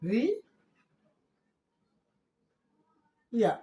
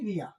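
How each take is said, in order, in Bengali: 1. এটা দুটো আলাদা শব্দাংশে বলা হয়। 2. এটা একটা মিশে যাওয়া শব্দাংশে বলা হয়। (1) "এটি হওয়ার হওয়ার কথা রি ইয়া, এরকম উচ্চারণ হওয়ার কথা ছিল" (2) "কিন্তু হয়ে যাবে এটি রিয়া"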